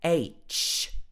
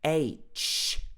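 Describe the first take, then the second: First: The letter name starts with a vowel sound. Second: The same.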